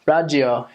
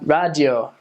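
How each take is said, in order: First: It is said with an American R sound. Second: It is said with an American R sound.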